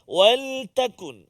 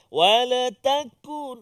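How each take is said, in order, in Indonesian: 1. Bunyi l tertutup tanpa vokal tambahan. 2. Ada vokal tambahan setelah bunyi l. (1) "Supaya dia tak bunyi melerik lam tu" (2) "wala lam tu dia tak jaga kan"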